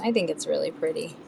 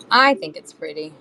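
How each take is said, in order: First: Said in the usual way. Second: I punched louder, then easing off; the word I stressed against "you guys". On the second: Real, not acted. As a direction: lean hard on I, as personal opinion. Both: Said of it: "Doesn't mean you guys think".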